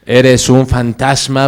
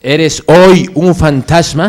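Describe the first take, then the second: First: Said in the usual way. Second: "hoy" punched louder and higher in the question; stress on "hoy". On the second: Acted. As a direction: press the question, leaning hard on "hoy". Question repeated, adding "hoy. (pregunta insistente, recalcando "hoy" más fuerte y agudo)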